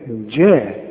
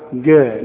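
First: The first consonant is a soft j sound. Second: The first consonant is a hard g sound. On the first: The speaker calls it right. "كل جيم في القرآن لابد انها تعطش" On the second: The speaker calls it wrong. "ما تقولش جعل جاء"

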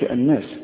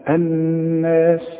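First: The doubled n lacks a two-beat nasal hum. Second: The doubled n has a two-beat nasal hum. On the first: The speaker calls it wrong. "ما تقولش الناس" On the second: The speaker calls it right. "النون المشدده لازم تغن بمقدار حركتين"

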